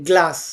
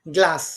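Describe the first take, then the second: Both takes have the same delivery.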